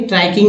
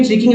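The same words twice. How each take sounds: First: ट्रैकिंग with an open ai glide, try-king; ai vowel pronunciation. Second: ट्रिकिंग with short i, as in trick; short i pronunciation. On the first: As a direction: say ट्रैकिंग with ai in the first syllable. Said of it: "ट्रैकिंग ही होगा". (ट्रैकिंग को 'ऐ' की आवाज़ से बोलना) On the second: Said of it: "ये ट्रिकिंग नहीं". (ट्रिकिंग को छोटी 'इ' से बोलना) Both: Shown as a demonstration.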